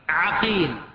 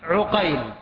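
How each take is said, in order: First: The first vowel of the name is 'a'. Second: The first vowel of the name is 'u'. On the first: This names the first of two different men. "أولهما بفتح أوله" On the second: This names the second of two different men. "وثانيهما بضمه"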